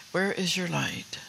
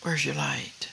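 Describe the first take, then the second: First: Slowed, each word spaced; slow emphatic question. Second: Breathy whisper, falling at the end; whispered question. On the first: Preacher pressing the congregation again, slow and deliberate. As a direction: press the question home slowly. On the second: Preacher whispering the question to the congregation, hushed. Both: Real, not acted.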